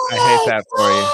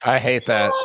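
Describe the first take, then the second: First: High, loud mock shout; mock outrage shout. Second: Said in the usual way. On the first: Real, not acted. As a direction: yell it in fake outrage.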